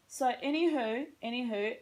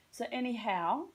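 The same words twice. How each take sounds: First: Whispered American "anywho", rising at the end; "anywho" in a light American accent. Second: "anyhow" in a plain Australian accent, rising; "anyhow" in her own Australian accent. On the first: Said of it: "how I say anywho like an American". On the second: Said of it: "I will amend to my Australian status". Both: Shown as a demonstration.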